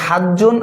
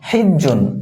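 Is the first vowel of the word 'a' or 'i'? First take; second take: a; i. First: The first vowel is an 'a' sound. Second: The first vowel is an 'i' sound. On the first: "হা বর্ণে জবর সহ" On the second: "হা বর্ণে জের সহ"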